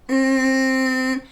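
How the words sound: It is a buzzy, strongly nasal hum.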